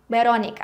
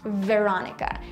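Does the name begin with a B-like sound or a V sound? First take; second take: B-like; V. First: The first sound is soft and B-like. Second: The first sound is a V with upper teeth. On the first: "It's more like Veronica. For me, this sound sounds more like a B" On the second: "this traditional English V, you know, when I have to do this with my upper teeth"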